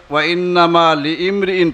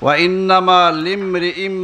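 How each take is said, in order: First: The last word ends with a clear n sound. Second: The last word ends with an m sound. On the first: The speaker calls it wrong. "যে বোন পড়ছেন ওয়াইন্নামা লিমরিইন পড়ছেন" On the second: The speaker calls it right. "শব্দটা উচ্চারণ ঠিক হয় নাই ওয়াইন্নামা লিমরিইম মা নাওয়া"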